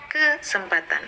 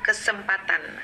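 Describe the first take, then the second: First: The stress falls near the start of the word. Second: The stress falls near the end of the word. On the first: The speaker calls it wrong. "bukan di awal ... itu akan membuat pendengar menjadi terganggu" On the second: The speaker calls it right. "berarti kepada patannya itu kesempatan"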